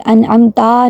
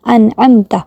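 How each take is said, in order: First: انعمتا with the final a stretched; انعمتا said an'amtaa; wrong long ending. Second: انعمت with a short final ta; انعمت said an'amta, clipped short; correct short ending. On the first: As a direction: drag the end of انعمتا. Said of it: "انعمتا نہیں کہیں گے". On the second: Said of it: "انعمت کو لمبا نہیں کریں گے". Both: Shown as a demonstration.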